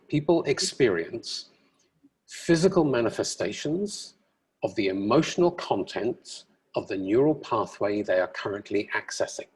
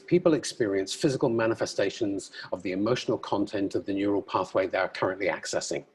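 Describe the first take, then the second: First: It is said slowly and deliberately. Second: It is said at a normal, quick pace.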